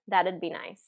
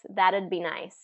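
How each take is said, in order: First: It is shortened to one syllable with a D sound. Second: It is shortened to one syllable with a D sound.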